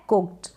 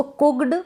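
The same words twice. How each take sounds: First: कुक्ड as "kukt", light T at the end; voiceless ending. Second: कुक्ड misread with a sounded D, "kukd"; wrong voiced ending. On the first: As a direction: say कुक्ड closing on k-t. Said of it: "फिर ये है कुक्ड". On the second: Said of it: "इसको कुक्ड गलत हो जाता है". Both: Shown as a demonstration.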